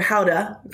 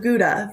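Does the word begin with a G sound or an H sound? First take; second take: H sound; G sound. First: The word begins with a breathy H sound. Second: The word begins with a hard G sound.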